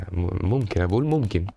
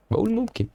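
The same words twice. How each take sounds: First: Said in the usual way. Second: ممكن jumped way up high, squeaky and teasing; mock high repeat. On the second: Real, not acted. Gamer teasing his own worry, squeaky high.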